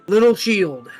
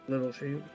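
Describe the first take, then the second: First: It is said clearly and loudly. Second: It is muttered very quietly.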